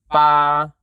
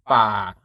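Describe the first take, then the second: First: BA held level at middle pitch. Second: BA pitched low. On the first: Teacher repeating the comparison, level mid tone. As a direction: keep "Ba" even and mid. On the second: Teacher repeating the comparison, low tone. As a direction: let "Ba" sink low. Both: Shown as a demonstration. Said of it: "Compare it with the mid tone".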